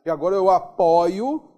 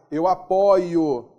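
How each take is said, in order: First: "apoio" with an open "ó" like apóio, louder. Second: "apoio" slow, closed "ô" like apôio. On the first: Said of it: "timbre aberto do verbo apoiar". ("apoio" com o aberto, como apóio) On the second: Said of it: "O timbre fechado". ("apoio" com o fechado, devagar) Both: Shown as a demonstration.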